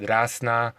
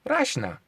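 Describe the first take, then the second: First: "Rasna" said with an s before the n; Rasna with plain s. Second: "Rashna" with sh before the n, pitched high; Polish sh pronunciation. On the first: Showing one Slavic variant, "Rasna" with plain s. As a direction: say "Rasna" with a hissless-of-h, simple s sound. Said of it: "you may call it Rasna". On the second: Showing how Polish people say it, "Rashna" with sh. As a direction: say "Rashna" with a sh sound, high and falling. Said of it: "but Polish people call it". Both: Shown as a demonstration.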